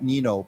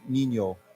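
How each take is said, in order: First: The middle consonant is a plain n sound. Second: The middle consonant is an ny sound. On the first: The speaker calls it wrong. "not Nino" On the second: The speaker calls it right. "there's like a Y in here... but Nino"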